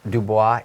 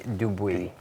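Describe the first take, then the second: First: The last syllable sounds like 'bwah'. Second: The last syllable sounds like 'bwee'. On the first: The speaker calls it wrong. "it's not Dubois. Please don't call it Dubois" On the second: The speaker calls it right. "There's no O"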